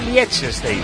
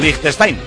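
First: The name is read with Spanish-style sounds. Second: The name is said with German-style sounds.

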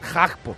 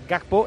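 First: The name begins with a soft, breathy H-like sound. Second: The name begins with a hard G sound. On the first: The speaker calls it right. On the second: The speaker calls it wrong.

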